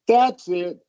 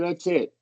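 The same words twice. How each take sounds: First: The stress falls on "that's". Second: The stress falls on "it".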